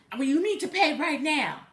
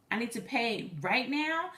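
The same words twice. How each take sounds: First: Higher, mildly raised mock demand; angry, antagonistic. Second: I NEED TO PAY RIGHT NOW slowed, rising on NOW; questioning echo. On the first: Scammer demanding immediate payment, mock angry insistence. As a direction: imitate a fussing bill collector. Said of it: "angry and antagonistic and fussing". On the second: Retold or imitated. Caller querying the scammer's demand, slow questioning echo rising on NOW. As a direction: repeat it slowly as a question, lifting NOW.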